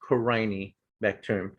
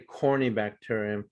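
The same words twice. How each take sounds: First: The word does not begin like 'corny'. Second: The word begins with a sound like 'corny'. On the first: The speaker calls it right. "It's pronounced Corynebacterium" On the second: The speaker calls it wrong. "if I hear someone say Corynebacterium, you know, I'll roll my eyes"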